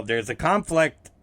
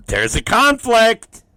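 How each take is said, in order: First: Said in the usual way. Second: Louder and higher, punching conflict; emphatic repeat. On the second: Real, not acted. Repeating the punchline to the co-host, loud and emphatic. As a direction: land the word conflict hard.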